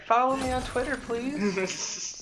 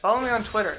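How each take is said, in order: First: It is said in a gentle, polite tone. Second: It is said in an aggressive, pushy tone.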